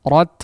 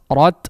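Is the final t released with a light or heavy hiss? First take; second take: light; light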